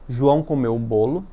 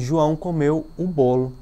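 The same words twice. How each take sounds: First: The emphasis falls on the word João. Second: The emphasis falls on the word bolo. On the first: It answers who ate the cake. "colocando a ênfase na palavra João" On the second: It answers what João ate. "colocando um acento na expressão bolo"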